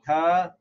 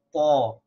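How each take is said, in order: First: "ta" with a plain light t; "ta" as light Arabic taa. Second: "ta" as a heavy "taw"; "ta" as emphatic Arabic Taa, loud. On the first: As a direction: say "ta" with the tongue forward, vowel thin. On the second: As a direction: say "ta" with a full, dark, rounded vowel. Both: Shown as a demonstration. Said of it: "make a difference between".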